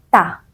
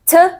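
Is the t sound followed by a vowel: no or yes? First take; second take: yes; no. First: The t sound is followed by a vowel. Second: A bare t sound with no vowel after it. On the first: The speaker calls it wrong. "parang T, A, ta. Dalawang sound na yon and pinaghalo mo" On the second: The speaker calls it right. "the correct answer is T"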